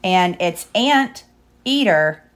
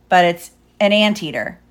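First: "ant ... eater" split slowly, like Aunt Eater. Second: "an anteater" as the animal name; stress on AN. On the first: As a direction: say "ant" like Aunt, then a pause before "eater". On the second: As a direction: punch "an" in "an anteater". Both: Shown as a demonstration. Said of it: "Get it?".

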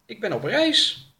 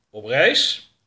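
First: High, hesitant character voice; pitched-up, uncertain reply; questioned traveller. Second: Louder, doubting echo; challenging repeat, rising on "reis"; sceptical interrogator. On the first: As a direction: answer the interrogator in a raised voice. Traveller answers an interrogation. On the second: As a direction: throw it back as a loud question. Older man queries the answer. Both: Acted.

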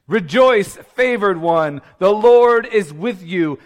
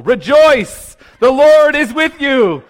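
First: Loud, raised herald's announcement; angelic proclamation. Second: Loud, high angelic announcement, hammed up; booming mock proclamation. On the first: Acted. Preacher re-enacting Gabriel greeting Mary, loud proclamation. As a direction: proclaim it grandly, stretching the last phrase. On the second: Preacher imagining greeting the doctor in an elevator, comic booming proclamation. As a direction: blurt it out like a herald angel.

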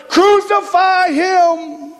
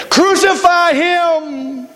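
First: Higher, drawn-out mock mob cry; intensify the crowd's call, stretching it high; even louder crowd. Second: High, drawn-out crowd call; crowd's cry. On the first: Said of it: "even louder". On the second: Acted. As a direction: imitate the mob, high and long. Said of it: "hear the crowd again when it said".

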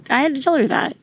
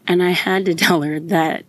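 First: Voice breaking. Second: Said in the usual way. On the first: Real, not acted. Mom recalling comforting her sick daughter, voice breaking high. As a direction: voice jumps much higher, near breaking.

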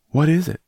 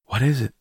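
First: Much higher and louder, alarmed; frightened cry for an answer; rising panic, near a shriek; panicked gasp. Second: Higher, alarmed and breathless; startled, frightened asking; gasped question. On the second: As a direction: gasp it out in alarm. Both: A narrator's reading. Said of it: "Miss Lennox gasped".

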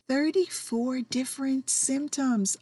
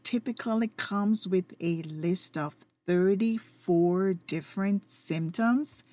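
First: Thirty-four lifted and leaned on; stress on thirty-four. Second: Said in the usual way. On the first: Shown as a demonstration. Repeating the number for listeners, stress on Thirty-four. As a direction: hit Thirty-four, then let symptoms fall. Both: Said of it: "Let me repeat".

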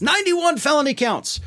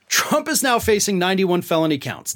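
First: Much higher, exclaimed in disbelief; incredulous repeat. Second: Said in the usual way. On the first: Retold or imitated. Host quoting a comic on Trump's charges, incredulous. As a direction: hit it higher, as if astonished.

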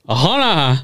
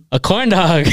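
First: "hold on" blurred, higher on "hold"; garbled retold reply. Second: "corn dog" said clearly, higher and louder; finally clear reply. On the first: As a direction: mimic an unintelligible "hold on" with consonants dropped. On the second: Retold or imitated. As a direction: imitate repeating "corn dog" so it's finally understood. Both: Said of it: "she gets close enough finally".

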